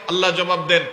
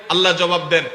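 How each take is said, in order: Both takes have the same delivery.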